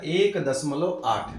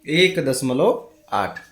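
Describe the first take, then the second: First: एक दशमलव आठ read slowly, word by word; teacher dictating एक दशमलव आठ slowly. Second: एक दशमलव आठ repeated slow and louder; teacher repeating एक दशमलव आठ louder and slower. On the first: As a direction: spell out एक दशमलव आठ slowly for the class. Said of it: "तो इसको कैसे पढ़ा जाता है?". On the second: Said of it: "कैसे पढ़ा जाता है?". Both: Shown as a demonstration.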